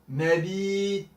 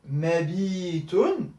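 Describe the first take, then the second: First: The word ends abruptly on t, no vowel. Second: The word ends with a vowel and n. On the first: The speaker stops at the end of the word. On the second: The word is not at a stop.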